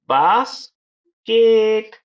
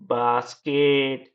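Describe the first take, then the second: First: बास, pause, higher केट; split into syllables. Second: basket slow but in one piece; joined syllables. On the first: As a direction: stretch both halves of basket apart. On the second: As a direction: say basket slowly, level, no long break. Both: Shown as a demonstration. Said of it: "दो syllable भी होते हैं".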